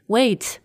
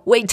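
First: It is said softly and politely. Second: It is said as a sharp command.

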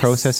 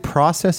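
First: It is said with a Canadian pronunciation. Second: It is said with an American pronunciation. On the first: "process is Canadian" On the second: "maybe process is American"

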